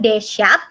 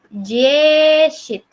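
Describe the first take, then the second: First: The first vowel sounds like 'e'. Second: The first vowel sounds like 'i'. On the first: The speaker calls it wrong. "bukan Deshat" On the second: The speaker calls it right. "dianya dibaca seperti I"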